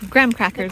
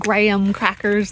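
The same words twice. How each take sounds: First: Graham is pronounced the American way. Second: Graham is pronounced in a non-American way. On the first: The speaker calls it right. "because American" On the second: The speaker calls it wrong. "they're not graham crackers"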